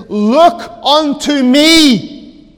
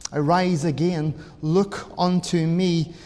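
First: Slow, loud, high call to sinners; pulpit cry. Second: Hushed appeal. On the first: Voicing preacher's cry as Christ. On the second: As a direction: lower the voice into a solemn appeal. Voicing preacher speaking as Christ. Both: Retold or imitated.

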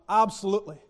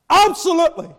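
First: Said in the usual way. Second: Loud, high, punched absolutely; emphatic shout. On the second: Acted. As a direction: slam the answer down. Preacher affirms emphatically.

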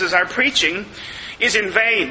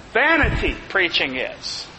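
First: Said in the usual way. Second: Vanity put first and leaned on, the rest falls away; stress on vanity. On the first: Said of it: "vain is the, uh, the emphatic word". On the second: Shown as a demonstration. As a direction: hit Vanity hard, then let preaching is drop. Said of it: "it's vanity that's emphatic".

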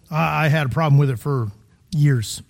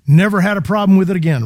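First: Said in the usual way. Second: Brisk, breezy sarcastic boast; mock claim. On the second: Shown as a demonstration. Preacher mocking the idea sin vanishes at salvation, sarcastic. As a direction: toss off "never had a problem with it again" as a naive claim.

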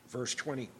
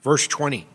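First: Soft murmured repeat of the verse; quiet repeat. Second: Loud call to the hall; loud announcement. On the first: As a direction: say it again much softer, almost to yourself. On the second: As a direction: call out the verse number loudly. Preacher calls out verse number. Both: Real, not acted.

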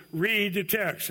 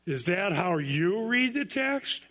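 First: "Read the text" as a firm order, falling on "read"; imperative command. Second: Slow, incredulous "Is that how you read the text?", rising on "read"; ironic question. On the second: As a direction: ask it as a sarcastic challenge, slowly. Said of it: "You could say it this way. / ironic question". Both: Shown as a demonstration.

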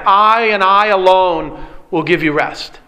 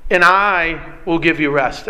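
First: "I" said with weight, both times; emphatic I. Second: Said in the usual way. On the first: Shown as a demonstration. Preacher to congregation, pressing the emphatic "I". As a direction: lean on "I and I alone". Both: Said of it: "notice the emphatic".

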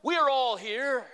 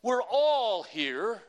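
First: Higher, louder, slow call; loud cry. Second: Very slow, louder stress on all; emphatic repeat. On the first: Acted. Paul calling to the jailer, loud cry. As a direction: shout We are all here to the jailer. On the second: Shown as a demonstration. Preacher repeating Paul's words to the congregation, slow and emphatic. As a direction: lean hard on all in We're all here. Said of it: "Catch that".

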